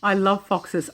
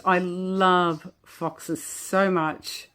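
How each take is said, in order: First: Said in the usual way. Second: Slow, words pushed out through real giggles; trying to talk but cracking up; laughing. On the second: Real, not acted. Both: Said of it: "I cannot stop laughing".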